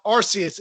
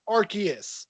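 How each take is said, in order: First: ARCEUS with an S sound, "AR-see-us"; rejected soft-C pronunciation. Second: ARCEUS with a K sound, "AR-kee-us"; insisted hard-K pronunciation. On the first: Fan rejecting the film's version, ARCEUS with a soft S. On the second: Fan insisting on the name, ARCEUS with a hard K. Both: Shown as a demonstration. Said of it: "it's not Arceus".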